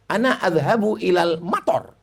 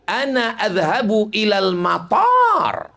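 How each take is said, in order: First: The vowel in the last word is short. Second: The vowel in the last word is long. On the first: It means going to the rain. The speaker calls it wrong. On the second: It means going to the airport. The speaker calls it right.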